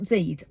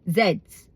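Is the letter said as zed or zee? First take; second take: zee; zed. First: The letter is pronounced zee, American style. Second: The letter is pronounced zed, British style. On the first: The speaker calls it wrong. "not Zs. I'm not American" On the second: The speaker calls it right. "They're Gen Zs"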